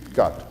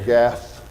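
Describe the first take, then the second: First: The word ends with a t sound. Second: The word ends with a th sound. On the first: This is the Hebrew pronunciation. "it's hardened, and so it just becomes a t sound. So, like what the Hebrews would say on that, they'd say got" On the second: This is the usual English pronunciation. "when we kind of make it a th, th sound, like we say Gath, like that"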